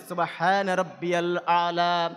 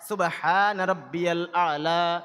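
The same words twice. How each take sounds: The two takes are said the same way.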